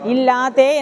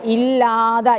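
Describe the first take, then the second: First: It ends with a doubled t and long e. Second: It ends with a single t and short a. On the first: The speaker calls it wrong. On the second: The speaker calls it right.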